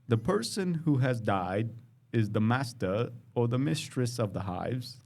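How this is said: It is said in a put-on British accent.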